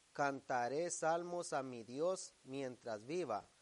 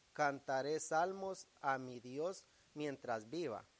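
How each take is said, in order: Both takes have the same delivery.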